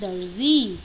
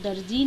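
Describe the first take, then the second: First: The middle consonant is a 'z' sound. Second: The middle consonant is a 'j' sound. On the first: The speaker calls it right. "वो है दर्जी" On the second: The speaker calls it wrong. "वो दर्जी नहीं है"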